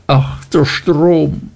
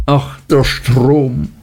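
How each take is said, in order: First: Higher, slow, anguished wail of a broken woman; passionate cry. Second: Passionate lament. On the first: Martha wailing to the dark water, higher anguished cry. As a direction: let the cry rise high and stretch it slowly. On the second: Martha by the river, crying out in despair, slow lament. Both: A narrator's reading. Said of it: "rief sie leidenschaftlich".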